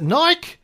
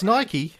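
First: The word rhymes with bike. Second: The word ends with an ee sound. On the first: The speaker calls it wrong. "how do you pronounce B-I-K-E?" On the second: The speaker calls it right. "no, it's Nike"

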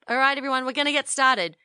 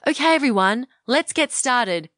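First: The voice sounds nasal, with little resonance. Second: The voice sounds round, with full resonance.

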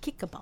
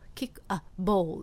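First: The k links into a, sounding like ka. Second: Each word is said separately, without linking. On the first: The speaker calls it right. "ここでかってなってしまう" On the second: The speaker calls it wrong. "kick a ball って言わないんですよね"

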